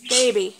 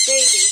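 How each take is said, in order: First: Said in the usual way. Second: A tiny squeak way up high; parrot-like squeak, much higher; squeaky bird voice. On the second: Real, not acted.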